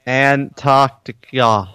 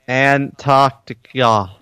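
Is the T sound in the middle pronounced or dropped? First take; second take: pronounced; pronounced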